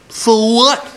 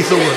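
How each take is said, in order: First: Put-on high, cheeky sneer of a rude girl; rude girl retort. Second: Said in the usual way. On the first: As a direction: toss it back like a bratty kid.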